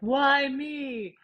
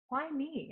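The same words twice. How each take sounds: First: It is said in an angry, self-pitying tone. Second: It is said in a soft, curious tone.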